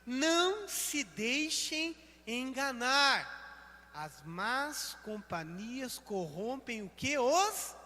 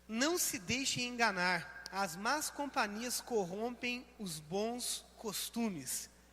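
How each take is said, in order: First: It is read very slowly. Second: It is read at normal speed.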